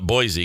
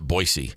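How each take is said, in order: First: It is said the way outsiders say it. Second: It is said the way locals say it. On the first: This is how people not from there say it. "I call it Boise because I'm not from there" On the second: This is how people from there say it. "They pronounce it Boise"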